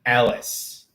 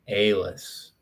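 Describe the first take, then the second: First: Alice with a short open a, as AL-iss; corrected pronunciation. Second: Alice opening with a long ay, as AY-liss; trial pronunciation. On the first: Streamer settles on the name, Alice as AL-iss. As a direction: open Alice on an ah-like vowel, not ay. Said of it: "Like an ah". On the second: Streamer works out a name, Alice tried as AY-liss. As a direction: say Alice like ale-iss, falling and lower. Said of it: "Okay, it's pronounced Alice". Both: Shown as a demonstration.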